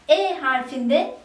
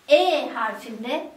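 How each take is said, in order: The two takes are said the same way.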